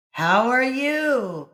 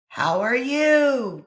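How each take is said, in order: First: The same call returned from afar; echo. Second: Slow, loud, higher call. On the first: Echo returning the call across the valley. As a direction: echo it back slowly. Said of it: "came back from across the valley". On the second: Boy calling to the kid on the other hill, loud. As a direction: call it out across the hills. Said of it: "Johnny called". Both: A narrator's reading.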